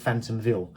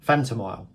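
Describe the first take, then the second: First: A 'v' sound comes before the last syllable. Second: No 'v' sound comes before the last syllable. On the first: The speaker calls it wrong. "I always call it Phantomville" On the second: The speaker calls it right. "but it's Phantomile"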